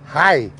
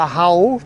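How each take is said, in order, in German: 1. Der Vokal klingt wie 'eye'. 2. Der Vokal klingt wie 'ow'. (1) "Hier ist Hai" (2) "In Bremen, da machen sie Hau"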